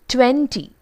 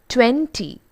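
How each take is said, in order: Both takes have the same delivery.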